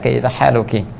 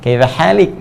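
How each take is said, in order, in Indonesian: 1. Kata kedua adalah 'haluki', dengan vokal di akhir. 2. Kata kedua adalah 'halik', dengan bunyi henti di akhir. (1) "kalau fasihnya gunakan dhamma" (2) "Ini yang slang"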